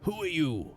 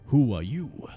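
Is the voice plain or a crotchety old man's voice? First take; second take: crotchety old; plain. First: It is said in a crotchety old man's voice. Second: It is said in a plain voice.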